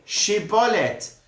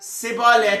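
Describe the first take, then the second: First: The word begins with an sh sound. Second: The word begins with an s sound. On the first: "You said Sibolet instead of Shibolet" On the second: "You said Sibolet"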